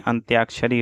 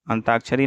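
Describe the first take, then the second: First: अंत्याक्षरी with "tyaa"; added y-glide. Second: अंताक्षरी with plain "taa"; missing y-glide. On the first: Teacher correcting the word, अंत्याक्षरी with a y-glide. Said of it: "अंत्याक्षरी होता है". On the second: Teacher showing the mistake, अंताक्षरी with no y-glide. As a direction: say अंताक्षरी without any y. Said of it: "अंताक्षरी नहीं". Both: Shown as a demonstration.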